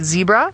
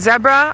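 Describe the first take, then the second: First: The word has an American pronunciation. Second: The word has a South African pronunciation. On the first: This is how people in the States say it. "if I was living in the States, I might say zebra" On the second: This is how people in South Africa say it. "for me, I say zebra. I live in South Africa"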